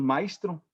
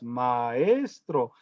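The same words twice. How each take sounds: First: The word is squeezed into two syllables. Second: The word has three syllables, stressed on the second. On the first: The speaker calls it wrong. "Parece que decimos maestro" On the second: The speaker calls it right. "tiene tres sílabas, maestro, y se acentúa en la segunda"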